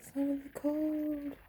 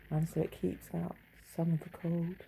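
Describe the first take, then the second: First: Higher, slowly drawn-out echo; musing echo of her own words, high and slow. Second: Said in the usual way. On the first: Shown as a demonstration. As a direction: repeat it slow and high, savouring it. Repeats the phrase to herself.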